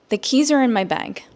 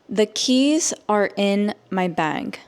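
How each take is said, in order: First: The sentence is spoken at normal speed. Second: The sentence is spoken slowly. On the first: "at a normal native English speaker speed" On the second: "I will say it slowly so that you can understand"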